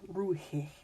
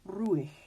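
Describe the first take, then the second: First: The H in the middle is pronounced. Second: The H in the middle is silent. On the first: The speaker calls it wrong. "not ruhig" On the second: The speaker calls it right. "it's still silent. This is ruhig"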